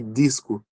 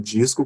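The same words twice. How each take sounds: First: The d sounds like a plain d. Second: The d sounds like a soft j sound. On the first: This is how people in the Northeast or Santa Catarina may say it. "apenas com som de D" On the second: This is how people from the speaker's region say it. "como eu faço, com D e G"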